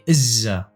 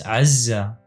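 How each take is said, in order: First: It opens with a plain vowel. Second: It opens with a throat consonant. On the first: This is the speaker's own dialect form. "in my dialect, I say Izza" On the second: This follows the written spelling. "here there is an Ain, so it's Azza"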